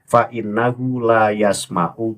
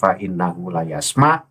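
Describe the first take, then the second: First: The last word ends with a final u vowel. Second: The last word stops without its final vowel. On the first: The speaker calls it right. "Bahar Smith membaca fa'innahu la yasma'u" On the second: The speaker calls it wrong. "dibaca fa'innahu la yasma', itu tidak boleh"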